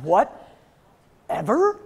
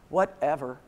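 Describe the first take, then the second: First: Slow, drawn-out, rising disbelief; incredulous echo. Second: Huff, then a low, dismissive mutter; mock a sulky teen brushing mom off; huffy teenager. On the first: Retold or imitated. Mom answering her teen's backtalk, incredulous. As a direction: throw the word back in outrage, very slowly. Mom echoes daughter's word, affronted. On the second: Teen daughter told to clean the kitchen, huffy. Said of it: "one of those little huffy breaths".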